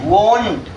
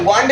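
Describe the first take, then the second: First: The vowel sounds like 'oh'. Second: The vowel sounds like 'ah'. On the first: The speaker calls it right. "वोंट clear है" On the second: The speaker calls it wrong. "वांट नहीं बोलेंगे"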